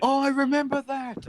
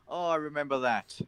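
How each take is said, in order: First: Loud burst of sudden memory; excited recognition. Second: Said in the usual way. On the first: Real, not acted. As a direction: blurt it out as it hits you.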